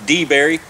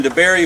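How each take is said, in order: First: DeBary said as DEE-berry, long ee first; old timers' pronunciation. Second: Said in the usual way. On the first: Retold or imitated. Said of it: "as the old timers call it". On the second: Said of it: "or as the old timers call it".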